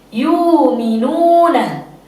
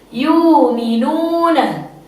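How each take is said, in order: First: The glottal stop is replaced by a long vowel. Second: The glottal stop is replaced by a long vowel.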